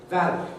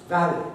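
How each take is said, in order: No difference in how they are said.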